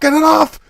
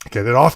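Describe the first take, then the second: First: It is said loudest, screamed. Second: It is said more softly.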